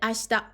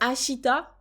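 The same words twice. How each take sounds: First: The i after sh is dropped and devoiced. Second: The i after sh is fully voiced. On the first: The speaker calls it right. "un japonais dirait ashita" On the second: The speaker calls it wrong. "si toi tu dis euh, ashita, bon bah on comprend"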